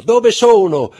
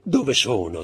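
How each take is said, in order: First: Very high, loud, delirious with joy; ecstatic cry. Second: First joyful call, still held back; rising joy. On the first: Mother cries out with joy as her son wakes. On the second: Mother calls out as her son opens his eyes. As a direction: begin the joyful cry. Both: A narrator's reading. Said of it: "gridò".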